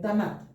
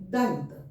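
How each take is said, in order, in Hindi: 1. न ध्वनि के बाद एक पूर्ण स्वर आता है। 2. न ध्वनि बिना स्वर के त से जुड़ती है। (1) "इसका द न त नहीं बोलेंगे" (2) "आधा न है, स्वर रहित है, इसलिए इसको एक मात्रा का समय देंगे"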